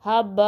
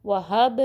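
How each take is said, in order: First: हब ending in a full ba; over-released हब, like habba; wrong added vowel. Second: वहब with a quick small bounce on b; short echo ending वहब; slight qalqalah. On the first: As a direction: turn the bounce of हब into an a vowel. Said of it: "ज़बर में भी नहीं change करना". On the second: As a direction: release the b of वहब quickly, no full vowel. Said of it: "थोड़ी सी पलटने की आवाज़ आए". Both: Shown as a demonstration.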